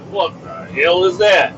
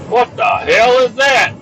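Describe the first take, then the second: First: Slow, drawn-out disbelief; disgusted question. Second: High, slow, drawn-out yell; escalated, high-pitched bafflement; outraged shout. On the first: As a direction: stretch out the question in disgust, not shouting. First take of disgusted question. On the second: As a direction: yell the question in comic disgust. Repeats the question, now shouted. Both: Acted.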